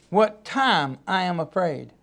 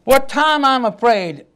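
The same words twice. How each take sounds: First: Hushed, slow reading of scripture; soft, slow repeat. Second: Said in the usual way. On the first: Shown as a demonstration. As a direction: lower and softer, slowed down. Repeats verse softly, slowly.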